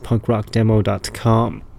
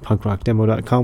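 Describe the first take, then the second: First: It is said slowly. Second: It is said fast.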